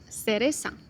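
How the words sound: The c and z are pronounced as s.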